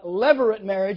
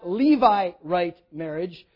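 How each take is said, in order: First: The word begins with a short 'lev' sound. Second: The word begins with a long 'lee' sound. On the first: The speaker calls it right. "but levirate marriage. It comes from the Latin word lever" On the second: The speaker calls it wrong. "It's not Levirate marriage"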